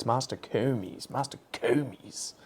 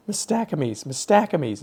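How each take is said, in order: First: Slow mock correction "Mastocomes", mas-tuh-KOO-meez; pedantic, higher "Mastocomes", stressed on third syllable; their pronunciation. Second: Insistent high "Mastacomys", muh-STACK-uh-meez; high, exasperated "Mastacomys", stressed on STACK; own pronunciation. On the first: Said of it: "the way they used to pronounce it". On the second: Retold or imitated. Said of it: "I'd say Mastacomys".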